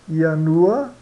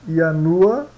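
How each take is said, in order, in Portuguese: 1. A palavra começa com som de Y. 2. A palavra começa com som de Y.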